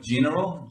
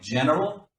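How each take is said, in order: First: The word is pronounced with a non-native sound. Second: The word is pronounced with a native English sound. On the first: The speaker calls it wrong. "He said it like general" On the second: The speaker calls it right. "more be more like general"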